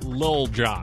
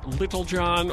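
First: The first word is one short syllable. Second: The first word has two full syllables. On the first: "or is it Lil Jon?" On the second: "is it [name]"

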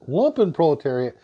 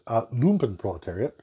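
First: It is said with an English pronunciation. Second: It is said with a German pronunciation. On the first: The speaker calls it wrong. "in English, the accepted pronunciation has become lumpenproletariat ... even though it's clearly wrong" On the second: The speaker calls it right. "in German, it's pronounced lumpenproletariat"

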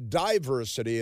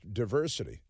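First: The first syllable sounds like 'die'. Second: The first syllable sounds like 'dih'. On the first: This is how a political group says it. The speaker calls it wrong. "they say diversity instead of" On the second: This is the ordinary way to say it. The speaker calls it right. "just diversity"

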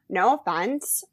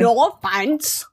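First: It is said in the speaker's normal voice. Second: It is said in an imitation of Renee's voice.

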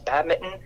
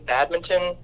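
First: It is said with an American pronunciation. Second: It is said with a Canadian pronunciation.

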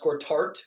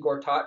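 First: The final syllable has an added r sound. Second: The final syllable has no r sound. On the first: The speaker calls it wrong. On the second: The speaker calls it right.

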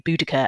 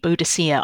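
First: The C is said as a hard K sound. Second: The C is said as a soft S sound. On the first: This is probably closer to how it was said in the past. "a hard K is probably a little bit more like how people would have said it" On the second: This is the older Victorian way of saying it. "The Victorians always preferred a soft C"

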